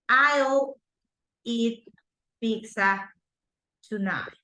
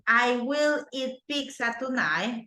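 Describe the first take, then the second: First: 'I will' is contracted into one syllable. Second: 'I will' is said as two full words. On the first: "I can say" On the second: "instead of saying"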